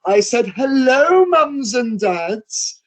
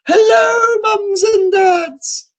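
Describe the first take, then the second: First: High, slow, drawn-out insistent hello; dame repeating greeting. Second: High, loud, long-drawn dame's cry; panto dame greeting. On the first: Dame repeating her hello to the silent parents. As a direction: stretch each word out to shame them. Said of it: "the dame goes". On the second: Pantomime dame hollering a hello to the parents. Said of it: "the drag queen comes out, the dame". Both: Retold or imitated.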